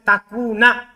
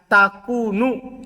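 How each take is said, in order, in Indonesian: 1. Kata ini berakhir dengan vokal 'a'. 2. Kata ini berakhir dengan vokal 'u'. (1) "Boleh antum baca takuna, boleh beramal" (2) "Boleh juga dibaca takunu, tidak beramal"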